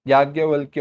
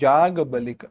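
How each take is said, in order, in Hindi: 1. यह y की आवाज़ से शुरू होता है, अंत -valkya है। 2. यह j की आवाज़ से शुरू होता है, अंत -balik है। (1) "शब्द तो याज्ञवल्क्य ही है" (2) "याज्ञवल्क्य हो गया जाग बलिक"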